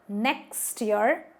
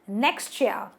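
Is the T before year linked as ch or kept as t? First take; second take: t; ch. First: The T and Y are said separately. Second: The T and Y merge into a ch sound. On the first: The speaker calls it wrong. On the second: The speaker calls it right. "it gets pronounced as ch"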